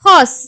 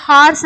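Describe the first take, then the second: First: ஹார்ஸ் as "hos", rounded vowel; ending in S sound. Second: ஹார்ஸ் with a long open "aa"; variant pronunciation. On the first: Teacher showing the word's final sound, ஹார்ஸ் as "hos". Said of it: "இஸ் sound தான் உங்களுக்கு முடியும்". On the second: Teacher quoting how some people say it, ஹார்ஸ் as "haars". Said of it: "சில பேர் ஹார்ஸ் அப்படின்னு சொல்லி சொல்லுவாங்க". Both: Shown as a demonstration.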